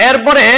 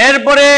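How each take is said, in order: The two takes are said the same way.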